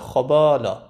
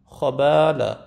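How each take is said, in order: First: خبالا with a dark, heavy با after the خ; mispronounced heavy BA. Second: خبالا with heavy خ, then a thin, light با; correct light BA. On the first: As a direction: let the heavy خ darken the vowels of با in خبالا. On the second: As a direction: keep the vowels of با and لا light and front in خبالا. («خبالا» با خِ درشت و بای نازک) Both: Shown as a demonstration.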